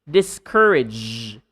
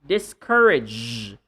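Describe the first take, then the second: Both takes have the same delivery.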